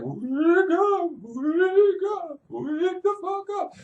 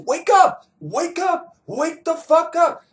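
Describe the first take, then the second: First: It is said in a ghostly voice. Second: It is said in a plain voice.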